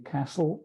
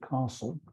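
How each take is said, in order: First: Castle is said in an American accent. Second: Castle is said in the speaker's home accent.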